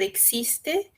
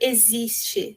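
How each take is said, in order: First: The x is said with a hard sound. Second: The x is said as a voiced z sound. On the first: "às vezes é pronunciado existe" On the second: "mas nunca vai ser pronunciado existe, né, como no português"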